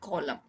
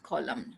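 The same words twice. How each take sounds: First: The word ends without an n sound. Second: The word ends with an audible n sound. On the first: The speaker calls it right. "the N sound is not pronounced" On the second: The speaker calls it wrong. "not column"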